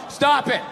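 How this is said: It is said in a flat, stiff reading.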